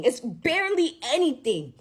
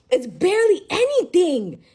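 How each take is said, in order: First: Said in the usual way. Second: "barely" pushed higher and louder; rising outrage on the repeat; emphatic repeat. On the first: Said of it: "repeats the phrase". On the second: Real, not acted. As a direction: hit "barely" hard the second time. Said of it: "repeats the phrase louder".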